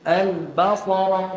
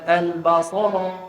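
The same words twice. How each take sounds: First: The stress is on the first syllable, ba. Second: The stress is on the second syllable, sa. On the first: The speaker calls it right. "Ba tu kena tekan" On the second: The speaker calls it wrong. "jangan tekan kat sad"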